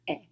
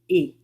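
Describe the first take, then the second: First: The vowel is said with an open sound. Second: The vowel is said with a closed sound. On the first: "O acento crase, o som é aberto" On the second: "o acento agudo, o som é fechado"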